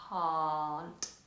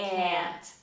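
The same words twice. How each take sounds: First: The vowel is open and long, British style. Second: The vowel is long and forward, American style.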